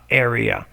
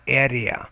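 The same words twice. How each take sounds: First: The first syllable sounds like the word air. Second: The first syllable does not sound like air. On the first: The speaker calls it right. "but air area area" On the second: The speaker calls it wrong. "not area"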